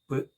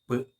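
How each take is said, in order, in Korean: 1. 짧은 자음 소리로 발음합니다. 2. 짧은 자음 소리로 발음합니다.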